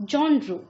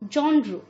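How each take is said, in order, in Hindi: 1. यह 'jon' की आवाज़ से शुरू होता है। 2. यह 'jon' की आवाज़ से शुरू होता है।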